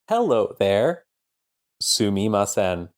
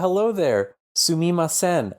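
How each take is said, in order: First: It is spoken in a disjointed, robotic way. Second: It is spoken in a natural, flowing way.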